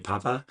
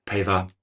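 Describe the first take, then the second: First: "Paiva" said as PAH-vuh; trying a pronunciation. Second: "Paiva" said as PAY-vuh; trying another pronunciation. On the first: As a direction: say "Paiva" with an open "ah" in the first syllable. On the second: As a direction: say "Paiva" with an "ay" in the first syllable. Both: Shown as a demonstration. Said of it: "I think I'm saying it right".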